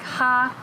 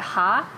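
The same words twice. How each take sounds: First: The pitch stays high and level. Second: The pitch rises from mid to high. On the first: "first tone" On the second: "second tone is like"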